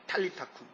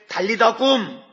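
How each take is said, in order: First: The words begin with strongly aspirated t and k. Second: The words begin with soft, unaspirated d and g. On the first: This is the original pronunciation. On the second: This is the familiar rendering.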